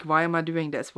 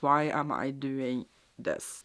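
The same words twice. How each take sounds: First: Said in the usual way. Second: Slow, soft mock-despairing repeat. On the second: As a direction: let it sink into half-joking dread. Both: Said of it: "And I am like".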